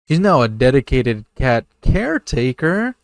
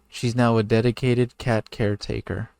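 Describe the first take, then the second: First: It is read excitedly, rising like a question. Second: It is read flatly, like plain narration. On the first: The speaker calls it right. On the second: The speaker calls it wrong.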